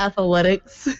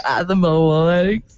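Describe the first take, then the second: First: Athletics said as ath-uh-letics; extra-syllable athletics. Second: Athletics drawn out slowly as ath-uh-mo-letics; garbled athletics. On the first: Host offers another extra-syllable word, athletics as ath-a-letics. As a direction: slip an "uh" into athletics after "ath". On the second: Host echoes the joke, athletics as slow ath-a-mo-letics. Joking about extra syllables in words. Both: Pretend.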